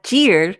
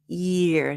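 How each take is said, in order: First: The word starts with a hard j sound. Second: The word starts with a soft y sound. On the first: The speaker calls it wrong. "not jeer" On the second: The speaker calls it right.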